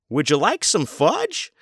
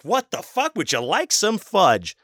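First: Higher, slow sugary offer; buffet guy offering a child fudge, hammed-up; mock server voice. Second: Very high, slow mocking echo of the server; incredulous mock repeat. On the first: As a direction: draw it out sweetly to a kid. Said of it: "Or even". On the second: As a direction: repeat it in disbelief, hamming the sugary voice. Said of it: "I was like".

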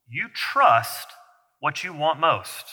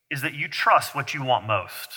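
First: "You trust" set apart by a pause, then "what you want most" slow and soft; slow emphatic repeat. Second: Said in the usual way. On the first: Shown as a demonstration. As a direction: lean on "trust" and "want", drawn out.

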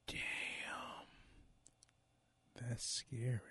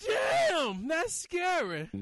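First: Creepy unvoiced whisper. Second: High eerie spooky intro voice; jack o lantern voice. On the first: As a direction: hiss it like a ghost story. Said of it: "I got chills from that". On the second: Acted. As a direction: ghoulish show-title cackle voice. Show title sting, spooky.

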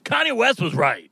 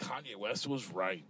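First: Mock statement while laughing. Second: Disbelieving repeat. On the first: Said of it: "I'm just kidding". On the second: Acted. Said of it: "Oh, my God".

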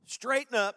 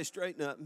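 First: Higher and louder, a rising call to the crowd; preached command. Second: Said in the usual way. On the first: Shown as a demonstration. To the congregation before they echo it, a loud call. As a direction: hammer straighten up out as a command. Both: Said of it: "Everybody say".

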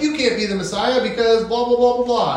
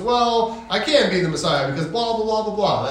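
First: Higher, sing-song objection from the crowd; mocking opponents. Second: Jesus answering. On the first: The crowd arguing with Jesus, higher mock whine. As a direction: rattle it off like a dismissive heckler. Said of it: "And they're like". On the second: Retold or imitated. Jesus answering the crowd, calm and even. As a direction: answer back evenly, unbothered. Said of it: "And he goes".

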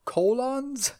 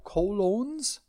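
First: "Colons" as KOH-lonz, like the punctuation mark; higher-pitched "Colons" with a short, open second O; trying another pronunciation. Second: "colons" with long O in both syllables, questioning; trying a pronunciation. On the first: Host doubting the currency name, trying "Colons" as KOH-lonz. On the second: Host unsure of the Costa Rican currency, trying "colons" as koh-LOHNZ. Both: Shown as a demonstration. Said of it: "I don't wanna say colon".

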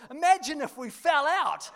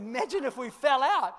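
First: Put-on high, loud boyish tease; son's cheeky quip. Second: High, laughing re-quote; repeated through laughter. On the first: Son Jack teasing his dad upside down, high and loud. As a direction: toss it off like a grinning kid. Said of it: "He goes". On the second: Retold or imitated. Pastor repeating his son's words, laughing. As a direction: say it again, chuckling in disbelief. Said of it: "Literally what he said".

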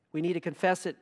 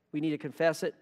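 Both takes have the same delivery.

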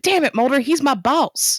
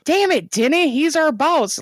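First: Hammed-up hero line, dragged out at the end; mock exasperated agent. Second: High, exasperated mock protest; half-hearted hero outburst; mock exasperated agent. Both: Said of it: "that's literally how that episode should have ended".

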